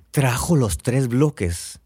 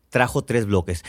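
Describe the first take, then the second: First: Slow, stretched "Trajo los tres bloques" in disbelief; retold amazed reply. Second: Said in the usual way. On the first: Friend hearing the blocks have arrived, slow amazed echo. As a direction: echo the news slowly, as if astonished.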